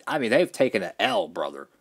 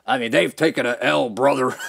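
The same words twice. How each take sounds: First: Said in the usual way. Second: Punchier repeat of "they've taken a L, brother"; a touch louder, driving the jab home; more emphatic. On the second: Real, not acted. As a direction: lean into the repeat.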